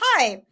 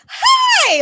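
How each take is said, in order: First: The greeting sounds even and neutral in pitch. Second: The greeting sounds bright, with the pitch going up. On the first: The speaker feels nothing special about the person. "If I'm neutral" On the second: The speaker is truly glad to see the person. "If I'm like genuinely really happy to see someone, ... my voice goes up"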